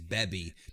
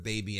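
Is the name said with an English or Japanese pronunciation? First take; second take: Japanese; English. First: The name is said with a Japanese pronunciation. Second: The name is said with an English pronunciation.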